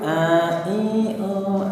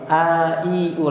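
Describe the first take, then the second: First: The vowels leak through the nose. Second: The vowels are released freely without nasal sound. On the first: The speaker calls it wrong. "Yang masih masuk pangkal hidung" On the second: The speaker calls it right. "Lepas saja los"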